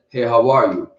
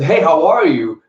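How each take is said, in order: First: The greeting sounds flat and unemotional. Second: The greeting sounds bright and cheerful. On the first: The listener is left unsure how they did. "did I do good?" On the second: The listener feels sure they did well. "you did a great job"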